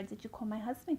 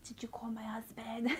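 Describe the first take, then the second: First: Said in the usual way. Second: Imitating barely being able to speak; weak, whispery mock post-surgery voice; dry-throated croak. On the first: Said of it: "asking her". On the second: Patient asking the nurse after surgery, straining through a dry throat. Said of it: "I couldn't really speak because my throat was dry".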